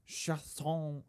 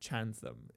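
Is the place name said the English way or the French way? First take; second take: French; English. First: The name is said with a French pronunciation. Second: The name is said with an English pronunciation. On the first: "Maybe it's like French" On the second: "if you pronounce it in anglicized"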